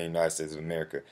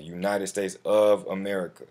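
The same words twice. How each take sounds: First: Said in the usual way. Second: "of" leaned on, then "America" falling; stress on of America. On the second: Shown as a demonstration. Tutor stressing the country name for viewers, with "of" punched. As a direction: hit "of" in "United States of America" to mark it. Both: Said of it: "I'm putting emphasis on that".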